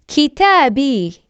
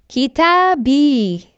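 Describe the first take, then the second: The two takes are said the same way.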